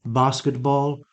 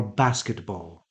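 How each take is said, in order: First: Basketball as BAH-skit-ball; long-vowel variant. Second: Basketball with the a of match; short-vowel variant. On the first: Teacher offering a choice, long vowel. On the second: Teacher offering a choice, short vowel. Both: Shown as a demonstration. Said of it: "so you have a choice".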